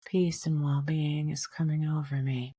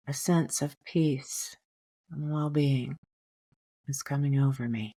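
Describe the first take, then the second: First: Softly whispered, breathy affirmation; a quiet whispered mantra for the inhale. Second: Said in the usual way. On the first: Shown as a demonstration. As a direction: whisper it to yourself like an inner mantra. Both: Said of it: "just remind yourself".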